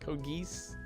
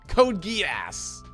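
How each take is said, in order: First: The second word is one syllable, like 'geese'. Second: The second word ends with an 'ass' sound. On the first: The speaker calls it wrong. "Code Geese, I assume" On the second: The speaker calls it right. "More ass, but not ass"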